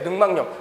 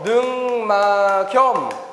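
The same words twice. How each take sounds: First: An added n sound begins the last syllable. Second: The k sound links into the last syllable. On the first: The speaker calls it right. "이게 표준 발음이에요" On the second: The speaker calls it wrong. "기억을 그대로 올려서 능막염 아니라는 거예요"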